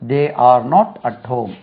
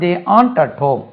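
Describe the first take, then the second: First: The words are not and are said separately. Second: The words are not and are joined into aren't.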